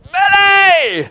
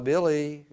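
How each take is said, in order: First: The name is shouted loudly. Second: The name is said softly and hesitantly.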